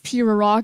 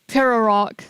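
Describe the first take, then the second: First: The first syllable sounds like 'pea'. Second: The first syllable sounds like 'pear'. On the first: The speaker calls it wrong. "I read it as Pirarok, as in like, you know, peas" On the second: The speaker calls it right. "Oh, pear. I get it"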